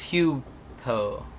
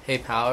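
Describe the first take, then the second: First: The first syllable sounds like hue. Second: The first syllable sounds like hey. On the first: The speaker calls it right. "it's Hugh Poe" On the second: The speaker calls it wrong. "or something I said"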